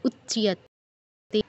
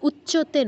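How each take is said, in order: First: A y-glide follows the ch sound. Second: The ch sound has no y-glide after it. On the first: The speaker calls it right. "চতে touch করে ইও এর উচ্চারণ" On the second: The speaker calls it wrong. "উচ্চতে নয়"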